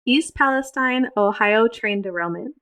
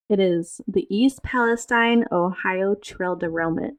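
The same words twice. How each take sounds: First: "train" said clearly in "Ohio train derailment"; re-read "East Palestine, Ohio train derailment" properly; corrected reading. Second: "trail" said instead of "train", slow anchor read; news anchor voice, misread word. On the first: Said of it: "How the hell did I get trail?". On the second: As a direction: read "Ohio trail derailment" with the slip "trail". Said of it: "should have stuck with my news anchor voice". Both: Acted.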